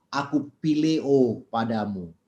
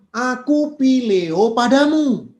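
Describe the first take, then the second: First: Tearful. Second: Loud, slow, impassioned Peter; fervent declaration. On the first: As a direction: say it gently, near tears, slowly. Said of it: "Lalu Petrus menangis". (lirih dan pelan, sedikit menahan tangis) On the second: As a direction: cry out the love, drawn out and loud. Peter answers Jesus fervently. (seruan lantang dan lambat penuh semangat) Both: Acted.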